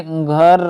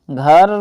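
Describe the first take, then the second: First: Said in the usual way. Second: घर pushed through the nose, lower; घर voiced through the nose; nasal demo. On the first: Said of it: "नाक में से सुर निकालना". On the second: Shown as a demonstration. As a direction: say घर nasally like a student. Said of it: "नाक में ही से बोलते हैं".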